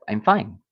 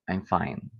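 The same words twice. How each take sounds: First: It is said in a warm, sincere tone. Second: It is said in a flat, possibly sarcastic tone. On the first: The speaker is really okay. "which would imply that you're really okay" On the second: The speaker is not really okay. "which is flat or could be sarcastic"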